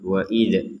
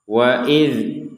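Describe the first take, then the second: First: The final dz is released with a bounce. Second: The final dz stops cleanly without a bounce. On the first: The speaker calls it wrong. "jangan wa idz wa idz. Itu kan ada pantulannya" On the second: The speaker calls it right. "huruf dzal tidak boleh dipantulkan"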